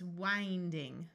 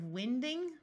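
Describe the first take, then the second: First: The i is a long vowel sound. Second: The i is a short vowel sound. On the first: It is built on the verb for turning. The speaker calls it right. "we need the verb, so it's winding" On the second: It is built on the noun for moving air. The speaker calls it wrong. "Have you ever heard of winding? That doesn't make sense. Wind is a noun"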